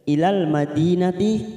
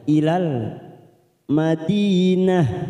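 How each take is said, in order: First: The final word ends in a t sound. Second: The final word ends in an h sound. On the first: The reciter continues into the next word. "karena sekarang kita wasol maka tak marbuto ini sudah berfungsi sebagai tak madinati" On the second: The reciter stops after this word. "Saat kita mewakafkan maka ini bunyinya ha dinah"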